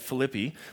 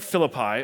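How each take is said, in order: First: The name is given its Greek pronunciation. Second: The name is given its English pronunciation. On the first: This is how people from the city say it. The speaker calls it right. "You come from a place that call it Philippi" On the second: This is how the church says it in the series. The speaker calls it wrong. "we keep pronouncing that word wrong"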